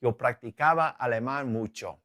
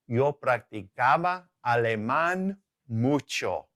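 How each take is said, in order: First: Said in the usual way. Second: Slow, drawn-out Spanish example; measured teacher's demonstration, stretched out; slow model sentence. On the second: Shown as a demonstration. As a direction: model it slowly, word by word.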